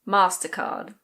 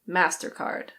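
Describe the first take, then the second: First: It is said with a British accent. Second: It is said with an American accent. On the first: "In British English, this one is MasterCard" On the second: "In American English, it's MasterCard"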